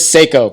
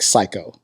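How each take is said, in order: First: The first syllable sounds like 'say'. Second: The first syllable sounds like 'sigh'. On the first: "It's Seiko" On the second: "but I could pronounce it like Psycho"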